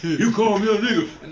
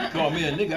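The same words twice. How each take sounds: First: Louder, higher, slow and offended; indignant, hammed-up comeback at the name-caller; mock angry. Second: Said in the usual way. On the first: Shown as a demonstration. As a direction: act out getting mad at the insult. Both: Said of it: "but if you go get mad".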